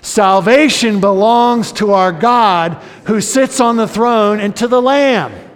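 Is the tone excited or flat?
excited. It is said in an excited tone.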